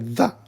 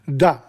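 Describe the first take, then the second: First: It begins with a th sound, tongue out. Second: It begins with a plain d sound. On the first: The speaker calls it right. "you got to put your tongue out, hold the tongue, and say the" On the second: The speaker calls it wrong. "the Italians say da. They can't pronounce the T H"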